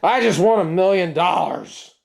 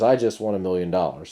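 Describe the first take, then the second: First: It is said in a grouchy, grumpy tone. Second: It is said in a plain, neutral tone.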